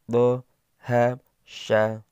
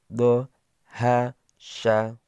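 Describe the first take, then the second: Both takes have the same delivery.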